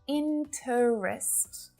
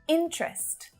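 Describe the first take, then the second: First: The word is said with three syllables. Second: The word is said with two syllables. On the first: The speaker calls it wrong. "not interest" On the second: The speaker calls it right. "just two syllables"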